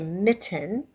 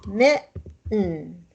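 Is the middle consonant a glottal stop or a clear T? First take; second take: clear T; glottal stop. First: The middle consonant is a clear T sound. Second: The middle consonant is a glottal stop. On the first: The speaker calls it wrong. "We don't say mitten" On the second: The speaker calls it right. "There's a glottal stop in there"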